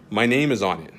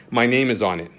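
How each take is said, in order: Both takes have the same delivery.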